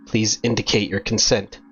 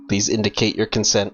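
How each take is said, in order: First: It is said in a normal, natural voice. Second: It is said in a flat, robotic voice. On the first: "Just, just do my normal voice" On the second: "Maybe a robot voice?"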